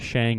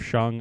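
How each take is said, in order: First: The vowel sounds like the one in 'hang'. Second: The vowel sounds like the one in 'hung'. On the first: It is read the way the speaker's dialect suggests. "Makes me want to say Shang" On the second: It is the pronunciation used in the movie. "instead of Shung"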